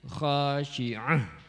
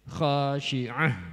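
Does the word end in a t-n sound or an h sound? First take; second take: h; h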